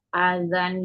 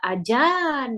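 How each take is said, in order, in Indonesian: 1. Konsonan di tengah itu bunyi z. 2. Konsonan di tengah itu bunyi j.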